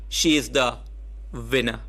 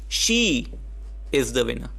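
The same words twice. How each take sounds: First: The word winner carries the emphasis. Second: The word she carries the emphasis.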